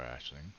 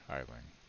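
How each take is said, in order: First: The name begins with an 'ash' sound. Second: The name begins with an 'eye' sound. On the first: The speaker calls it right. "makes more sense" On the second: The speaker calls it wrong. "I think I'm saying that wrong"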